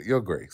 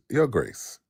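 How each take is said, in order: First: Said in the usual way. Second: A touch of a posh English accent on Your Grace; lightly mock-English, like your ancestors. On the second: Shown as a demonstration. Mocking host demands a title in an English accent, lightly put-on English accent. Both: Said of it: "Say, say it in the English accent".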